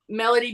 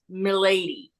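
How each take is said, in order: First: The name is said like the word melody. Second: The name is said like my-lady. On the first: This is the form she preferred to be called. The speaker calls it wrong. "I always pronounced it Melody because she preferred it" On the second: This is the actual pronunciation of the name. The speaker calls it right. "but it was actually pronounced Milady"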